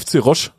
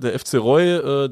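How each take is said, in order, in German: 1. Der Name endet auf einen sch-ähnlichen Laut. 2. Der Name endet auf einen y-ähnlichen Gleitlaut. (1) "ich glaube, FC Roche spricht man die aus" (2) "wer unsere klassischen Ausspracheregeln sonst kennt, der würde FC Roy sagen"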